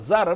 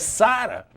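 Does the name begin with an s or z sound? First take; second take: z; s. First: The name begins with a z sound. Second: The name begins with an s sound. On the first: The speaker calls it wrong. "todo mundo fala Zara, não é Zara" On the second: The speaker calls it right. "é Sara"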